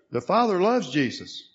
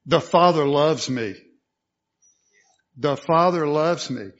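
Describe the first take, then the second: First: Said in the usual way. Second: Loud, firm declaration landing on "me"; personal declaration. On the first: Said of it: "having somebody say to Jesus or to others". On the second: Shown as a demonstration. Preacher modelling what to speak out, declaring "me" loudly and personally. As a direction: speak "me" out boldly as a personal claim. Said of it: "speaking that out in that personal sense".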